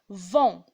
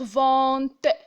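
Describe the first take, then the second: First: The final T sound is silent. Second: The final T sound is pronounced. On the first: The speaker calls it right. "je vais dire vent" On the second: The speaker calls it wrong. "je vais pas dire vente"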